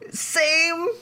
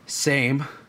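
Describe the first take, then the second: First: It sounds eager. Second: It sounds disappointed.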